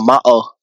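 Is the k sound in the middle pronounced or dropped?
dropped. The k sound in the middle is dropped.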